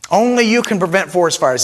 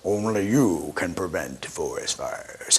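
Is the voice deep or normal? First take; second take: normal; deep. First: It is said in his normal voice. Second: It is said in Smokey Bear's deep voice.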